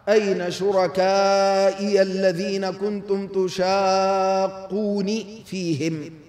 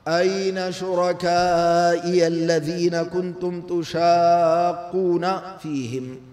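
First: The verb ends with the syllable 'ni'. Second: The verb ends with the syllable 'na'. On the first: They opposed God himself. "وقرأ نافع وحده: ... تشاقون أصلها تشاقونني" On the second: They opposed the messengers. "هذه قراءة الجمهور"

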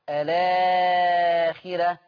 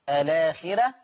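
First: The lengthened vowel is held moderately. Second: The lengthened vowel is held briefly.

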